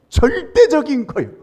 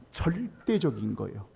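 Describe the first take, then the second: First: 절대적인 said higher and louder; preacher's loud punch on 절대적인; emphatic repeat. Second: Said in the usual way. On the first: Shown as a demonstration. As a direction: proclaim 절대적인 with force.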